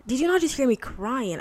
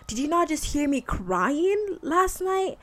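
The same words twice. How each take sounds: First: "Did you not just hear me crying?" with "not" stressed less, a milder whiny repeat; a milder whiny repeat with "not" only lightly pushed; lighter whine. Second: NOT stressed, high and slow, whining; "did you not just hear me crying last night?" with "not" drawn out high, a whiny plea to God; whiny complaint. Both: Retold or imitated. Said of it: "I sound like I'm whiny right now".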